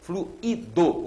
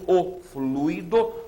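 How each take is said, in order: First: The 'u' and 'i' are separate syllables. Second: The 'ui' is said as one syllable. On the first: It is the past participle of the verb to flow. "e esse aqui com hiato" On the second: It is the noun for a fluid substance. "que é o substantivo, o fluido, você tem o ditongo"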